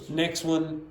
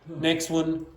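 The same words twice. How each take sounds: No difference in how they are said.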